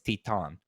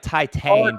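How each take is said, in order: First: The name is said with French sounds. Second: The name is said with English sounds. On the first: It is said as a French title. "but it's a French movie, so it's Titan" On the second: It is read as it looks on the page. "it's like Titan"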